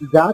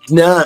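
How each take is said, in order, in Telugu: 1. అక్షరం సాధారణ 'j' శబ్దంతో మొదలవుతుంది. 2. అక్షరం 'j-ny' కూటాక్షరంతో మొదలవుతుంది. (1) "జా కాదమ్మా" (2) "జ్ఞా, జ్ఞానం అంటాం కదా"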